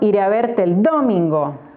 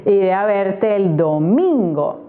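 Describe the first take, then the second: First: The stress is on the first syllable. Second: The stress is on the second syllable. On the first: The speaker calls it wrong. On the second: The speaker calls it right. "Uh-huh, me parece"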